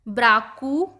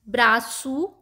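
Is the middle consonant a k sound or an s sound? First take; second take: k sound; s sound. First: The middle consonant is a k sound. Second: The middle consonant is an s sound.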